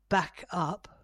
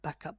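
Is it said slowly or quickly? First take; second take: slowly; quickly. First: It is said slowly and calmly. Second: It is said quickly and urgently.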